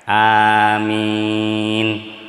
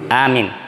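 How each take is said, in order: First: Both vowels are drawn out long. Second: Both vowels are kept short. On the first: It is the response said in prayer. The speaker calls it right. "a-nya panjang dan mi-nya panjang" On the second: It means safe or to believe. The speaker calls it wrong. "aman. ... Percaya"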